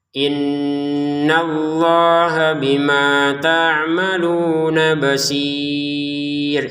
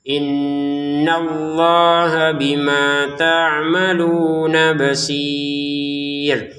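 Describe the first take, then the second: The two takes are said the same way.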